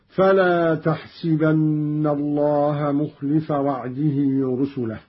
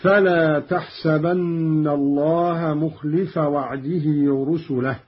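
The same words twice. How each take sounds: First: تحسبن recited as taḥsibanna; تحسبن with kasra on sin; Qalun kasra on sin. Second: تحسبن recited as taḥsabanna; تحسبن with open sin; fatha on sin. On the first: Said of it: "بكسر السين في الموضعين هكذا". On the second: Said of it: "قرأ قالون بكسر السين". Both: Shown as a demonstration.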